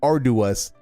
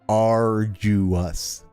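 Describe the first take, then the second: First: The middle syllable sounds like "do". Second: The middle syllable sounds like "jew". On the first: The speaker calls it wrong. "not arduous" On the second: The speaker calls it right.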